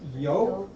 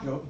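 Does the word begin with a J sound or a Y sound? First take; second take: Y sound; J sound. First: The word begins with a Y sound. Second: The word begins with a J sound.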